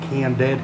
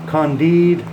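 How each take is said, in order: First: It is said like English 'candid'. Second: It is not said like English 'candid'. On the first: The speaker calls it wrong. "a lot of people pronounce it Candid, but it doesn't make any sense" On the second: The speaker calls it right. "so I know how to pronounce it"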